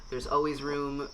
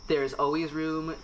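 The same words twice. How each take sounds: The two takes are said the same way.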